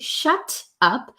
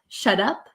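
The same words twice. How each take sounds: First: The t is a crisp, clear t sound. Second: The t sounds like a soft d. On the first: "You could say shut up as a proper true T" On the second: "sounds like a soft D sound"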